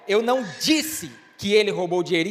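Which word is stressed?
disse. The stress falls on the word disse. Something else was said. "então o que foi que você disse?"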